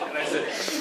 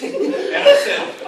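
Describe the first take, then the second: First: Said in the usual way. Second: High squeaky giggle through the words; laugh-cracked narration; breaking up laughing. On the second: Real, not acted. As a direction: lose it mid-line.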